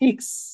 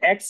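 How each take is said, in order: First: The letter name begins with an i vowel. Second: The letter name begins with an e vowel. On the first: This is how they say it. "সেটাকে তারা বলে ইক্স" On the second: This is how we say it in English. "আমরা যেটা হচ্ছে এক্স বলি"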